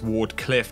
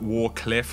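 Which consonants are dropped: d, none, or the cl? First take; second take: none; d. First: All consonants are pronounced fully. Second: The d sound before cliff is dropped. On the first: The speaker calls it right. "which is actually how you say it" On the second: The speaker calls it wrong. "not Warcliff"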